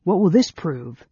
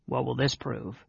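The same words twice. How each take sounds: First: Raised, louder sneering challenge; scornful demand, pitched up. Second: Softened private grumble; under his breath. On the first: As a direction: throw the question out with scorn. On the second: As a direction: say it quietly to a companion. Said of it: "said under his breath". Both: A narrator's reading.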